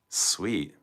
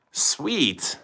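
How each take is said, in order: First: Whisper. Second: Higher unvoiced whisper. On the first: Reacting to a viewer's chat message, whispered. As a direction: breathe the word Sweet with no voice. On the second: Repeating the reaction to the chat, higher whisper. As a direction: whisper Sweet again, pitched up. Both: Real, not acted.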